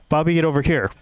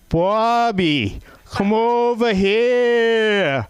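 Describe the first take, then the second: First: It is said quickly in a neutral accent. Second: It is said in a slow Boston accent.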